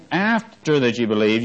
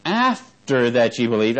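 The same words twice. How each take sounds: First: "After" punched at the start of the phrase; stress on after. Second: "after" leaned on, slow and drawn out; stress on after. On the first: Preacher repeating the verse to stress "After". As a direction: lean on "After", let the rest fall. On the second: Preacher stressing the timing of the Spirit, "after" weighted. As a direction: hit "after" hard and slow. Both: Shown as a demonstration. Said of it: "I'm emphasizing the word what?".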